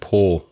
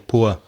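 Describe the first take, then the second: First: The vowel is one steady sound. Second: The vowel glides like 'oo-a'. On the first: "I say poor" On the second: "there's that sound that's ua, ua, for words like poor or sure. And I don't speak like that"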